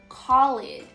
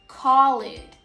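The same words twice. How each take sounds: Both takes have the same delivery.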